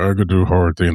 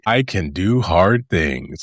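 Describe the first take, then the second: First: It is said flatly, with low energy. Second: It is said loudly, with high energy.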